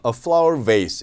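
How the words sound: Vase is said with an American accent. "미국식 발음으로는 vase라고 발음이 되거든요"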